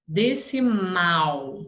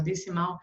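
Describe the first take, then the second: First: DECIMAL slowly, with MAL stretched and strong; stress on last syllable. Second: Said in the usual way. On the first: Shown as a demonstration. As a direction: lean long on the MAL of decimal. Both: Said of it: "o tom dela saiu mais alto".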